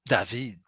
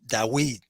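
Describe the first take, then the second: First: The middle consonant is a v sound. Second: The middle consonant is a w sound. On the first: This is how it is said in modern Hebrew. "we pronounce like David for many reasons in modern Hebrew" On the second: This may be how it was said in ancient times. "perhaps they used to pronounce Dawid"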